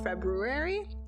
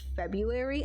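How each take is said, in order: First: The first R sound is clearly pronounced. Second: The first R sound is left out. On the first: The speaker calls it right. "there's an R in there, make sure you pronounce it" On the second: The speaker calls it wrong. "saying February instead of"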